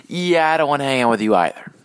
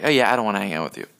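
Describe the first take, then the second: First: Higher, louder mock refusal, less hurried. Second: Quick, casual brush-off in a lightly acted voice. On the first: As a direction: refuse pointedly in a lightly acted voice. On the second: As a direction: toss off a fast refusal.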